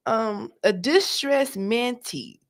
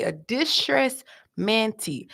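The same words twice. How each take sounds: First: Slow, weighing distressed mantee; slow emphatic. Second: Distressed mantee again, slow and deliberate; slow emphatic echo; slow repeat. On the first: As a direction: lean on distressed, slowly. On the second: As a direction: drag it out for the audience. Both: Shown as a demonstration. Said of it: "Y'all hear me?".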